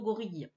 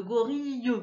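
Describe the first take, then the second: First: Said in the usual way. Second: "gorille" with a sounded "-yeu" at the end; audible final E. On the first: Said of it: "mais nous on dit plutôt". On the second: Shown as a demonstration. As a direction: let the last E of "gorille" be heard. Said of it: "On l'entend un petit peu". (« gorille » avec le E final prononcé)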